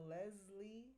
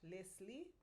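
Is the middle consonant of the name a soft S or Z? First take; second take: Z; soft S. First: The middle consonant is a buzzing Z sound. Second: The middle consonant is a soft S sound. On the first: "when you say it in English, I prefer the Leslie sound, with the Z" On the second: "unless you can say it correctly in French, Leslie. Then you can say with the soft S"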